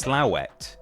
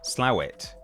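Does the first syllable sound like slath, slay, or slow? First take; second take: slow; slow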